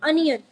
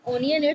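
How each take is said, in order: First: "onion" starting with an UH sound, "UN-yun"; correct "onion". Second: "onion" with an O sound, "OH-nee-yun"; wrong "onion". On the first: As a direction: open "onion" on a short uh. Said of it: "it's onion". ("onion" को "अनियन" बोलें) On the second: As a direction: start "onion" with a round O, as commonly mispronounced. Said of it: "but it's not onion". ("onion" को "ओनियन" बोलें) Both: Shown as a demonstration.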